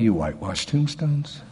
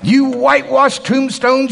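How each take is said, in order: First: It is said in a soft, gentle manner. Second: It is said in a forceful, harsh manner. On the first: The rebuke is mild and sweet. The speaker calls it wrong. "Do you think he said it like this?" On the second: The rebuke is stern and confrontational. The speaker calls it right. "I think it was more like that"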